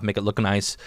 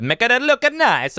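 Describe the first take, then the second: First: Said in the usual way. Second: Put-on slow hammy Italian accent on make it look nice; playful Italian accent. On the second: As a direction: stretch it out like a mock Italian chef. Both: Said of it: "I don't know why I did that Italian".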